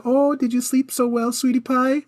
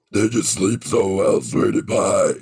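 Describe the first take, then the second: First: Put-on high, sweet baby talk; cute voice. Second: Low, menacing demon growl. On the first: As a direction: coo it like to a toddler. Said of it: "something a little cute". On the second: Retold or imitated. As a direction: sound like a horror film demon. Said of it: "sounded like demon coming to murder somebody".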